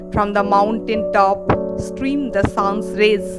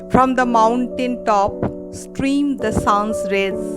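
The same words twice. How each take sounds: No difference in how they are said.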